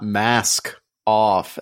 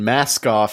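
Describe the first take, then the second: First: The two words are kept apart. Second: The two words run together as one. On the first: It means not wearing a mask. "as in like not wearing a mask" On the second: It is a single word like a dog breed. "as one word"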